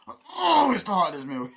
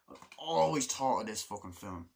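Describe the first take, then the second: First: Much higher, much louder mock strain; hammed-up constipated bellow; exaggerated aggressive straining. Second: Slightly forceful insistence; mildly aggressive emphasis on "always"; a touch aggressive. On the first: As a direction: force it out as if straining on the toilet. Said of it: "aggressively, like I was taking a shit". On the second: Real, not acted. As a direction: push it out a little aggressively. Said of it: "said that so aggressively".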